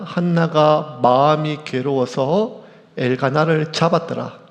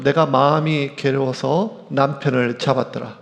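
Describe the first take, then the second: First: Each word of 한나가 마음이 괴로워서 엘가나를 잡았더라 read slowly and weighed; slow the verse down and lean on 한나가; 잡았더라 landed with a firm falling close; slow emphatic reading. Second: Said in the usual way. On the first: Shown as a demonstration. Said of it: "자, 되게 중요합니다". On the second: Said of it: "보통 이렇게 하죠".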